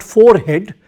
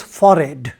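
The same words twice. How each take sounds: First: "forehead" said as fore-head, with the H sounded; full fore-head pronunciation. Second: "forehead" said as FOR-ed, with the H dropped; H-less forehead. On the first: Teacher showing pupils the rejected way, "forehead" with a clear H. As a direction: say "forehead" as two words, fore plus head. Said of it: "The pronunciation is not forehead". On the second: Teacher correcting pupils, "forehead" said as FOR-ed without H. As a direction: say "forehead" to rhyme with horrid, ending in -ed. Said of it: "but it is forehead". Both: Shown as a demonstration.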